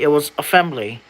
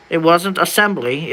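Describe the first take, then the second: First: "assembly" said "afembly" with an F; long-s reading. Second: Said in the usual way. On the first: Shown as a demonstration.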